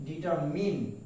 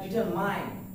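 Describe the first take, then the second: First: Determine ending in "min"; correct pronunciation. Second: Determine ending like "mine"; common mispronunciation. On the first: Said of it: "The word is determine". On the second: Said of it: "We pronounce". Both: Shown as a demonstration.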